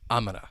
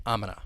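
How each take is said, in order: First: It is squeezed down even further. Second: It is squeezed down even further.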